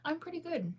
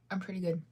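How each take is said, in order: First: Much higher, light sing-song answer; chirpy reply. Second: Said in the usual way. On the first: Real, not acted. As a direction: toss off a bright high answer. Answering chat question cheerfully.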